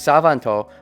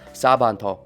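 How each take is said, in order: First: The second consonant is a V sound. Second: The second consonant is a B sound. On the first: "there's Savanto, but Japanese doesn't say uh, the V sound a lot" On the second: "They generally do just say the B sound. So it would be Sabanto"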